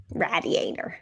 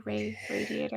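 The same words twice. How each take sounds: First: "Radiator" with a short a, as in "rad"; short a pronunciation. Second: "radiator" with a long A, as in "ray"; long a pronunciation. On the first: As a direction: say "Radiator" starting "rad", not "ray". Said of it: "It should be radiator". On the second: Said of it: "it's a long A". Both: Shown as a demonstration.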